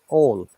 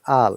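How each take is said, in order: First: The word is said with a British vowel. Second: The word is said with an American vowel. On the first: "in British I P A all" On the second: "American says all"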